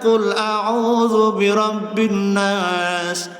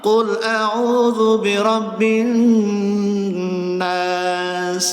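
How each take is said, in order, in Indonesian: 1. Bunyi n yang digandakan dilewati dengan cepat. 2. Bunyi n yang digandakan ditahan selama dua ketukan. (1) "Jangan langsung, Pak. Jangan" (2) "Nun tasdid itu lamain dulu, dua ketukan minimal"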